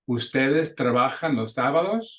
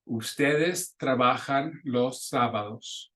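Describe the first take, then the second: First: The pitch rises at the end. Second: The pitch stays level or falls at the end. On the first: It is a question. "you can hear with los sábados how my voice raises up the end" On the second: It is a statement. "That's a sentence, a statement"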